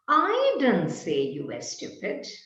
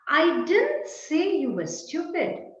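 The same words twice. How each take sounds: First: The stress falls on the word I. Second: The stress falls on the word didn't. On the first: Someone else said it. "perhaps there was someone else who said you were stupid, but I didn't" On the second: The saying is flatly denied. "No, I didn't say it"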